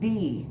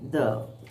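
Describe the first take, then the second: First: The word ends in a long 'ee' vowel. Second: The word ends in a short 'uh' vowel. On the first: The next word begins with a vowel. "before a vowel, this article the is pronounced as the" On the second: The next word begins with a consonant. "for the rest of the words which begin with consonants, we say the"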